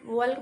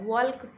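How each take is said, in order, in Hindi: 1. इस शब्द में L की आवाज़ बोली जाती है। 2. इस शब्द में L की आवाज़ बोली जाती है।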